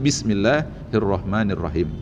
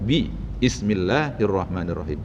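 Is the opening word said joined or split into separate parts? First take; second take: joined; split. First: The phrase is said as one joined word. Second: The first part is split off before the rest. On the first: "Sama seperti" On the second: "kalau dipisahkan"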